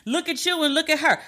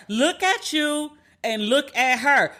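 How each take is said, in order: First: Pitched higher, quick and disbelieving; incredulous jab. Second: Slowed right down, each word laid out; slow emphatic jab. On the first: Mocking the ex to the podcast listeners, higher and disbelieving. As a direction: toss it off higher, like you can't believe it. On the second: Driving the point home to listeners, slow and deliberate. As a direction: spell it out slowly so he gets it. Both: Retold or imitated. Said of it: "'Cause I was like".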